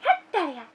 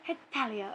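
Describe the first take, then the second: First: It is said in a very high, excited voice. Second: It is said in a normal voice. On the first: "Hers is like" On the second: "everyone has a Hetalia thing"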